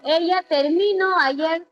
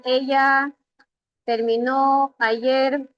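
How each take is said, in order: First: "terminó" said as ter-MI-no, middle syllable stressed; stress moved to MI. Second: "terminó" stressed on the last syllable, ter-mi-NÓ; stress on final NÓ. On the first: Teacher changes the accent to test sense, saying ter-MI-no. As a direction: shift the weight of "terminó" back onto MI. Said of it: "Ya no va a decir terminó". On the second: Teacher reads the original sentence, stressing ter-mi-NÓ. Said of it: "aquí decía". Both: Shown as a demonstration.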